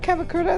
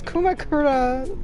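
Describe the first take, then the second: First: The name begins with the syllable 'ka'. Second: The name begins with the syllable 'ku'. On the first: The speaker calls it wrong. "I've been saying it wrong this whole time. It's not Kamakura" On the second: The speaker calls it right. "it's Kumakura"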